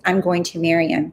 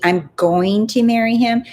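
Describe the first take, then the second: First: Said in the usual way. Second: "going" stressed, pitched higher; emphatic restatement. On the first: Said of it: "All she did is like". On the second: Retold or imitated. Coach showing how the client claimed her husband, emphatic "going". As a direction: lean on "going" to make the point. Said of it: "Do you see?".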